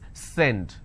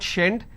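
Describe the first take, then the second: First: The word starts with an S sound. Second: The word starts with an SH sound. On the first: The speaker calls it right. "it's send" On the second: The speaker calls it wrong. "It's not shend"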